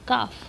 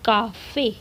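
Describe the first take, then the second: First: The word ends without a final vowel sound. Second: The word ends with a clear 'e' vowel. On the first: The letter is read as if it has no accent. "अगर ई के ऊपर कुछ भी नहीं होता तो हम कहते काफ" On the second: The letter is read with its accent. "पर हम कहते हैं काफ़े"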